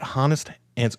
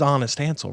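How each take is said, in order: First: The first word begins with an h sound. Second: The first word begins without an h sound. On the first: The speaker calls it wrong. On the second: The speaker calls it right.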